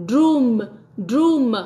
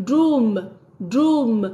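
Both takes have the same delivery.

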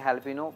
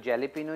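First: The word begins with an h sound. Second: The word begins with a j sound. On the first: "बहुत सारे लोग हेलिपिनो कहते हैं" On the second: "पढ़ने में जेलिपिनो पढ़ते हैं"

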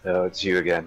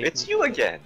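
First: It is said in a negative, annoyed tone. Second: It is said in a warmer, friendlier tone. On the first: The speaker dislikes the person greeted. The speaker calls it wrong. "You said that in a negative voice" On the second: The speaker is glad to see the person. The speaker calls it right. "Is that better? I'm trying to be better"

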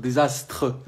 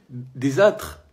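First: The word is said with the s sound. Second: The word is said without the s sound. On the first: The speaker calls it right. "C'est désastre" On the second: The speaker calls it wrong. "pas désâtre"

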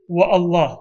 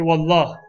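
First: The two words are said separately. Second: The two words merge into one word. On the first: The speaker calls it wrong. "We don't say wa Allah" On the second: The speaker calls it right. "we say wallah"

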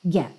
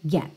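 Both takes have the same delivery.

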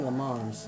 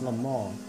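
First: The name is said in an anglicized way. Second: The name is said with French pronunciation. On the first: The speaker calls it wrong. "people say Le Mans" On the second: The speaker calls it right. "It's Le Mans. That's how the French pronounce it"

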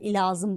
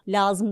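First: The word starts with an added i sound. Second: The word starts directly with the l sound. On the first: "İlazım derler afyonda" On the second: "Lazım demezler"

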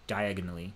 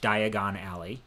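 First: It is run together like one word. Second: It is said as two separate words. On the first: "he reads it like diagonally" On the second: "in the movies, it's pronounced Diagon Alley"

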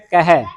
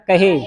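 First: The word ends in an 'ai' vowel. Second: The word ends in a plain 'e' vowel. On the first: The speaker calls it right. "ਇਹਨੂੰ ਕਹਿਣਾ ਕਹਿ" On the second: The speaker calls it wrong. "ਆਪਾਂ ਪੜਦੇ ਹਾਂ ਕਹੇ, ਇੱਕ ਇੱਕ ਲਾਂ ਲਾ ਕੇ"

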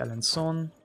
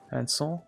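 First: The name ends like the English word son. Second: The name ends with a nasal French vowel. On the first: The speaker calls it wrong. "Not Son" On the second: The speaker calls it right. "That's definitely the better pronunciation"

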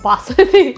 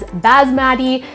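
First: It is pronounced the traditional way. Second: It is pronounced the common anglicized way. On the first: The speaker calls it right. "the traditional form of basmati" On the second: The speaker calls it wrong. "Some of you guys may refer to it as basmati"

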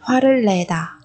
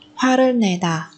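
First: The syllable after hwareul starts with an L sound. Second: The syllable after hwareul starts with an N sound.

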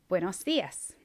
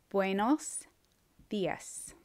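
First: The phrase is said at normal speed. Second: The phrase is said slowly and carefully. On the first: "I'm going to go ahead and say the words" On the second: "then I'll say it slower"

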